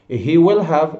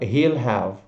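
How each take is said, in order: First: Every word is said in full. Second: Pronoun and will merge into one syllable.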